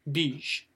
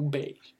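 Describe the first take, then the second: First: Beige said as "beezh", drawn out; slow beige with an "ee" vowel; first English variant. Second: Beige said as "behzh", drawn out; slow beige with an "eh" vowel; second English variant. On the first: Teacher recaps the options, beige pronounced "beezh". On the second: Teacher recaps the options, beige pronounced "behzh". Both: Shown as a demonstration. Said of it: "les deux phonétiques".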